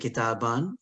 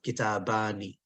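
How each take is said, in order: First: The word ends on the n, no final vowel. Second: The word ends with a final i vowel. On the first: The speaker stops after the word. "If I stop, I don't have to pronounce the kasra" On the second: The speaker continues without stopping. "if I don't stop, I pronounce the kasra"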